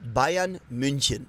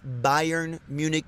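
First: The name is said with a native German pronunciation. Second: The name is said with an American pronunciation. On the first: The speaker calls it right. "It's going to be Bayern München" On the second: The speaker calls it wrong. "this is not Bayern Munich"

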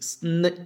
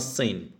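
First: The s and n are joined without a vowel. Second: A vowel is inserted between s and n. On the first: The speaker calls it right. "This is sn" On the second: The speaker calls it wrong. "Don't pronounce this as sin"

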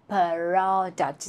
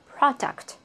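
First: The p and r sounds are pulled apart. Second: The p and r sounds run quickly together. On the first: The speaker calls it wrong. "you cannot separate the sound when you speak. You cannot say product" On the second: The speaker calls it right. "finally, you have to say it quickly"

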